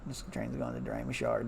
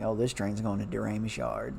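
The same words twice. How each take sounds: First: "Doremus Yard" ending on a rising tune; rising radio call. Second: "Doremus Yard" ending on a falling tune; falling radio call. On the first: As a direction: lift the pitch up on "Yard". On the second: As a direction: close the phrase going down on "Yard". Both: Retold or imitated. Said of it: "and there's like".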